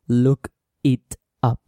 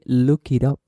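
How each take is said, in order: First: The words are said separately. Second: The words run together without breaks. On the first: The speaker calls it wrong. "So you don't say" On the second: The speaker calls it right. "You say"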